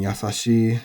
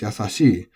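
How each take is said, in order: First: The pitch stays flat with no accent drop. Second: The pitch rises then drops at an accent. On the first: This is the traditional, older pronunciation. "Yasashi is traditionally a flat um, adjective. So older people especially will still be saying" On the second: This is the newer, increasingly common pronunciation. "developing an accent as"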